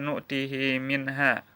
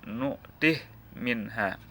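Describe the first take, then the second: First: The h is followed by a vowel. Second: The h is silent, with no vowel. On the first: This is the usual reading. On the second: This is the Susi reading.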